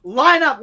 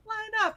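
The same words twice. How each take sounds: First: Barked command. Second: High, soft, timid command; meek line up. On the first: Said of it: "He's like". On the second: Meek female TI gives the same order to the flight, high and soft. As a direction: say it so small nobody hears. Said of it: "she's like". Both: Retold or imitated.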